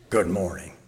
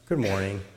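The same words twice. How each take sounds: First: It is grunted in a grumpy tone. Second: It is said gently and caringly. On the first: Don't bother me before my coffee. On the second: The listener may be hurting. "Gently, caringly"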